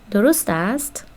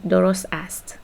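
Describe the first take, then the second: First: "درست است" with the pitch rising on "است"; same words "درست است" turned into a question by a final rise; question intonation. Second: "درست است" as a plain statement, no rise at the end; statement tune. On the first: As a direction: ask "درست است" as a yes-no question, ending upward. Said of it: "If you add a question mark". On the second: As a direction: state "درست است" matter-of-factly, voice settling on "است". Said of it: "which means it is correct". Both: Shown as a demonstration.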